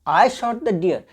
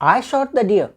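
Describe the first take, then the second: First: It is said as a doubtful question. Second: The same.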